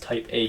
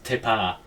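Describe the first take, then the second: First: The first vowel sounds like 'eye', two separate words. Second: The first vowel sounds like 'ee', run together.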